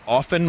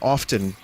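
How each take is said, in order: First: The word is said without a T sound. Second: The word is said with a clear T sound. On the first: "I said often my whole life. O F E N" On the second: "I started saying often because people in the stream were upset that I wasn't pronouncing the T"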